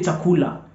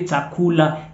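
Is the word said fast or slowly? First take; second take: fast; slowly. First: The word is said quickly and fluently. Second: The word is said slowly and drawn out. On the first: The speaker calls it right. "They say chakula. ... they speak it fast" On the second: The speaker calls it wrong. "They don't say chakula. ... in a slow motion"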